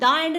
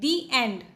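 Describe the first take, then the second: First: 'The' is said with a short 'thuh' vowel. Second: 'The' is said with a long 'thee' vowel. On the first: The speaker calls it wrong. "उसको हम द end नहीं बोलते हैं" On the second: The speaker calls it right. "प्रोनाउंसिएशन किया जाता है दी एंड"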